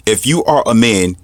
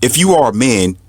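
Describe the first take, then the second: No difference in how they are said.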